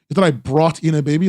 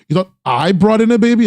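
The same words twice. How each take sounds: First: The stress is on the word brought. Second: The stress is on the word I.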